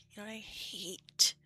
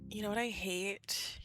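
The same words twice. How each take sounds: First: Slow breathy whispered question. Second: Said in the usual way. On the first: Real, not acted. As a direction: whisper it slowly.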